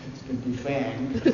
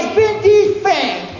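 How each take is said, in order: First: "it's been defanged" said softly and low, unsure; soft hopeful claim. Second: "it's been defanged" yelled high and loud, slow; mocking shout. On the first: Retold or imitated. The actor softly assures the wrangler "it's been defanged". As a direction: murmur "it's been defanged" as a timid reassurance. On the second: The wrangler yells "it's been defanged" back at the actor, high and loud. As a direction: bellow "it's been defanged" in scornful disbelief. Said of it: "She goes".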